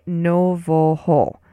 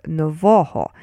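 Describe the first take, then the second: First: "novoho" slowly as NO-vo-ho, evenly like nova plus ho; unstressed build-up. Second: "novoho" as no-VO-ho, punching VO; middle-syllable stress. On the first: Teacher builds it from nova, "novoho" slow as no-vo-ho. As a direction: sound out "novoho" slowly before fixing the stress. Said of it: "but only with the stress on the middle syllable". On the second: Teacher corrects the stress, "novoho" stressed as no-VO-ho. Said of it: "with the stress on the middle syllable". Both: Shown as a demonstration.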